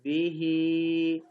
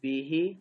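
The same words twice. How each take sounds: First: The final vowel is drawn out long. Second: The final vowel is short.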